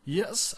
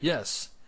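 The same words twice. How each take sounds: First: It is said in a croaky, weak voice. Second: It is said in a clear, confident voice.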